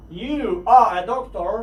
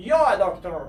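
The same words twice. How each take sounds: First: Slow, careful full form You are; drawn out You are. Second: Said in the usual way. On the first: Shown as a demonstration. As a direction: stretch You are out clearly. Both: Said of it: "باید شما اینها رو حتماً بدونید".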